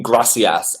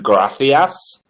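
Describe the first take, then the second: First: "gracias" with an S sound for the C. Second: "gracias" with a TH sound for the C. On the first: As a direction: say "gracias" as GRA-see-as. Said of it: "is there a difference between gracias and gracias". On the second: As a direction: say "gracias" as GRA-thee-as. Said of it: "C equals T H". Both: Shown as a demonstration.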